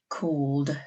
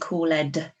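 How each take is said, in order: First: The word is said as one syllable. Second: The ending is said as a separate syllable. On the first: The speaker calls it right. "So almost that E is silent" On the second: The speaker calls it wrong. "We don't say called"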